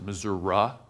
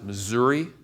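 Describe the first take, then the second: First: It uses the central Missouri pronunciation. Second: It uses the eastern Missouri pronunciation. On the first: The speaker comes from the middle of the state. "In the middle of the state, they pronounce it Missouri" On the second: The speaker comes from the eastern side of the state. "on the eastern side of the state, we pronounce it Missouri"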